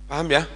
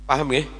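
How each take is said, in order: The two takes are said the same way.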